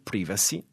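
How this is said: It is said the British English way. "è quella dell'inglese britannico"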